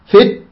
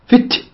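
First: The t stops sharply with no breath after. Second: The t is released with an audible breath. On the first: The speaker calls it wrong. "لاحظ شدة لكن ما يأتي بالهمس" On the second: The speaker calls it right. "فت ن هكذا"

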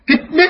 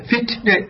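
First: The t is closed off with no breath release. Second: The t is released with an audible puff of breath. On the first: The speaker calls it wrong. "خطأ، هذا غير صحيح" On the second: The speaker calls it right. "بخروج النفس ت ت هكذا"

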